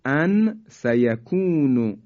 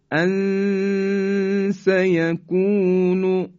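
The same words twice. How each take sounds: First: Said in the usual way. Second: ان سیکون recited very slowly, the ن hidden with a long nasal hum before س; slow, raised Quranic recitation; ikhfa recitation. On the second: Shown as a demonstration. (تلاوت آهسته ان سیکون با غنه و اخفا) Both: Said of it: "مثال بعدی".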